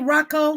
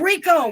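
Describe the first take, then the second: First: The word is said as Rocco. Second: The word is said as Rico. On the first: The speaker calls it wrong. "Am I saying it right when I say Rocco?" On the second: The speaker calls it right. "No, it's Rico"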